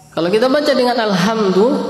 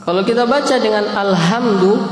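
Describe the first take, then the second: Both takes have the same delivery.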